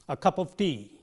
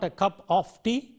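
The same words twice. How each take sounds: First: The word of has a weak, reduced vowel. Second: The word of has a full, strong vowel. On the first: The speaker calls it right. "a cup of, of" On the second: The speaker calls it wrong. "it is not"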